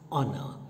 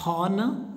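First: The word begins with a vowel, h silent. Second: The word begins with an audible h sound. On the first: The speaker calls it right. "Here H is silent" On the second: The speaker calls it wrong. "Do you say honor? No"

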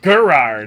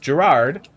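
First: The name begins with a hard G sound. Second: The name begins with a J sound. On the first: "G's don't do that. It's Gerard" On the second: "the G is pronounced like a J"

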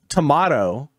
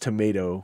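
First: Tomato is said with a British pronunciation. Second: Tomato is said with an American pronunciation. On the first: "way more common in like the British language" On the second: "here in the United States"

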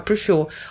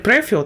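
First: The stress is on the second syllable. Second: The stress is on the first syllable. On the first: The speaker calls it right. "а prefer. Останній склад наголошений" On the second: The speaker calls it wrong. "Не prefer"

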